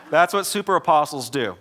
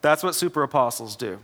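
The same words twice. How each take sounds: First: Said louder through a laugh; a chuckling "That's what super apostles do."; laughing punchline. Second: Said in the usual way. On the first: Real, not acted. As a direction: land "That's what super apostles do." while still amused.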